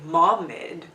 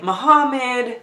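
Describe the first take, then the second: First: The middle 'ha' sound is dropped. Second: The middle 'ha' sound is clearly pronounced. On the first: The speaker calls it right. "just breeze through the ha part and leave that out" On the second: The speaker calls it wrong. "I'm used to pronouncing the ha part of that name"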